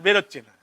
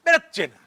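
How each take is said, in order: First: Said in the usual way. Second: Sudden outburst. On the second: Acted. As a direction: flare up on বেরোচ্ছে না. Sudden outburst on the same words.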